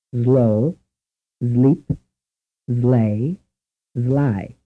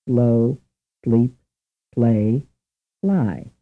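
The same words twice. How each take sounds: First: "Slow", "sleep", "slay", "sly" each started with a buzzing z, as "zlow", "zleep", "zlay", "zly"; Italian-accented English. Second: Said in the usual way. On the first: Shown as a demonstration. Teacher demonstrates how an Italian says "Slow": z before the l. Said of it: "likely to imitate these four English words as follows". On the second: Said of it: "many words begin with the S sound followed by the L sound".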